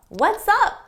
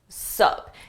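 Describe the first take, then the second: First: The greeting is said in full, two syllables. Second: The greeting is shortened to one syllable. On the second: "shorten this and simply say sup"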